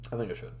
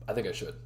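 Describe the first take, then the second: First: "I think I should" whispered softly. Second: Said in the usual way. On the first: Shown as a demonstration. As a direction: whisper it like a secret. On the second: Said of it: "I think I should. whisper".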